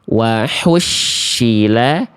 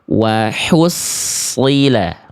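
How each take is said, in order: First: The middle consonant is an sh sound. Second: The middle consonant is an emphatic s sound. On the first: The speaker calls it wrong. "Kalau yang B berubah jadi shin" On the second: The speaker calls it right. "yang tepat adalah yang C"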